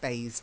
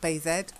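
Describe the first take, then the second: First: The vowel is long, as in 'bay'. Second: The vowel is short, as in 'bath'. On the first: The speaker calls it right. "Silent E" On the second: The speaker calls it wrong. "Not bathed"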